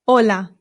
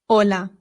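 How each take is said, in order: The two takes are said the same way.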